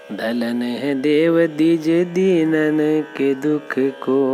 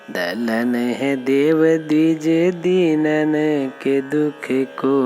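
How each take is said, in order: The two takes are said the same way.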